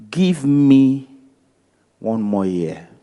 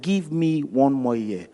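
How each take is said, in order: First: Firm plea, then the voice drops away on the last words; farmer's plea. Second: Quieter and slower, gently pleading; soft slow plea. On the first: Farmer begging the owner to spare the fig tree, dropping off at the end. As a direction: press the farmer's case, then let it sink. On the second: Pastor repeating the farmer's plea to the owner, soft and slow. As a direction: let the words fall soft and drawn out. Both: Retold or imitated.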